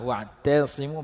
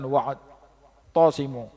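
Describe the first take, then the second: First: The ta sound is light. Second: The ta sound is heavy. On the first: The speaker calls it right. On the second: The speaker calls it wrong. "Jadi baca tebal tak, salah"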